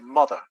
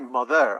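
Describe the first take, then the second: First: The stress is on the first syllable. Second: The stress is on the second syllable. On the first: The speaker calls it right. "I say mother" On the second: The speaker calls it wrong. "I don't say mother"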